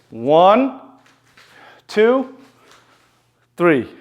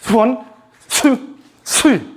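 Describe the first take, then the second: First: The numbers are counted slowly. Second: The numbers are counted quickly.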